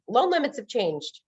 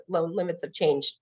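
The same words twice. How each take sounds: First: "Loan limits have changed" raised high and slow, "limits" leaned on and falling; announcing the news. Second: Blank echo. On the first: Lender's email blast to realtors: "Loan limits have changed" announced high and slow. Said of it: "you know". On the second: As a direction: mumble "loan limits have changed" back as if it means nothing. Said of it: "They're like". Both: Retold or imitated.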